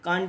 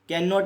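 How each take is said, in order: First: The words merge into one short syllable. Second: Both words are said fully and separately. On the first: The speaker calls it right. "वो कांट बोलते हैं" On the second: The speaker calls it wrong. "कैन नॉट नहीं बोलते हैं"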